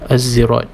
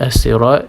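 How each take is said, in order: First: The word is said with a Z sound. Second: The word is said with an S sound. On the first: This is one reciter's own reading. "Imam Kunbul yang membaca az-zirat" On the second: This is the common reading. "kalimah sirat ataupun as-sirat"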